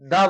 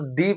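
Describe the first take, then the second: First: The word ends in a short 'uh' vowel. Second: The word ends in a long 'ee' vowel. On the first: The next word starts with a consonant. "जब भी कोई word consonant letter से start होता है तब दा को दा बोला जाता है" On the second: The next word starts with a vowel. "जब भी कोई भी word vowel sound vowel letter से स्टार्ट होता है तो वहां पर उसको दी डी बोला जाता है"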